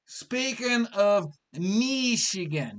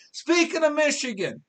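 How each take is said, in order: First: Slowed-down "speaking of Michigan" in a put-on voice. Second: Said in the usual way. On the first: Shown as a demonstration. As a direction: repeat it slowly in a different voice.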